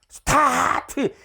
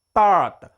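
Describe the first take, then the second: First: The T bursts out strongly and forcefully. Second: The T releases only a slight puff of breath. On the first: The speaker calls it wrong. "이렇게 막 우리말 타타타 하듯이 막 크게 터트리는 소리가 아니에요" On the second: The speaker calls it right. "약간 나와. 숨이 약간 나온단 말이에요"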